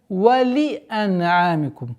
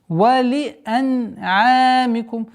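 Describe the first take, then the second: First: The vowel after the l is fully pronounced. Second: The vowel after the l is fully pronounced.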